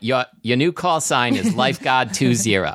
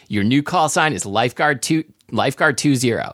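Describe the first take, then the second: First: It is read in a strong Boston accent. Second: It is read in a plain, neutral accent.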